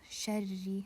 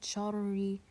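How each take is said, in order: First: The first consonant is light, with a lowered tongue back. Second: The first consonant is heavy, with a raised tongue back. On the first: The speaker calls it right. "So sharri" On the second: The speaker calls it wrong. "not sharri"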